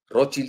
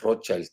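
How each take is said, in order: First: The name is pronounced the German way. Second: The name is pronounced the English way. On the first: "se dice en alemán" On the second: "en inglés"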